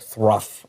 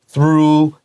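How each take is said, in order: First: The word ends with an f sound. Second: The word ends with a long oo vowel. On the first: The speaker calls it wrong. "Don't say something like thruff" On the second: The speaker calls it right. "This is through like moon"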